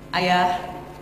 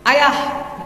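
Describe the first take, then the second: First: It is said at a normal pitch. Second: It is said very high and loud.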